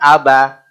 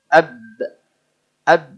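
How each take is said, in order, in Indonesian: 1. Vokal a penuh ditambahkan setelah b. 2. Bibir menutup pada b lalu dilepas perlahan. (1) "Bukan sengaja aba... ini sengaja pakai a" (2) "kemudian dijauhkan ab ab"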